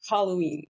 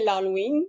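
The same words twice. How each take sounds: First: Halloween in English, with aspirated H; English accent. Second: L'Halloween the everyday Québécois way, silent H; Québécois French accent. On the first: Guest showing off her super accent, English pronunciation with aspirated H. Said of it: "accent anglais ou accent québécois?". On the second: Guest showing the host both accents, normal Québécois French pronunciation. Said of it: "j'essaie de le dire normalement". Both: Shown as a demonstration.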